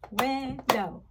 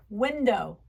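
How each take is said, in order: First: "Window" split into two beats; syllable by syllable. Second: Said in the usual way. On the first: Shown as a demonstration. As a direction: clap out "Window" with a break in the middle. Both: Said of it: "Can you clap it out?".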